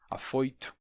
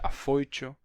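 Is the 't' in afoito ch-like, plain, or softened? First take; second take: softened; ch-like. First: The t is only slightly ch-like. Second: The t sounds like a full ch.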